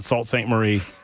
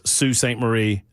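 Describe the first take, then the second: First: The first word does not sound like 'Sue'. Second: The first word sounds like 'Sue'. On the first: The speaker calls it wrong. "I apparently was mispronouncing" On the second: The speaker calls it right. "that's pronounced Sue"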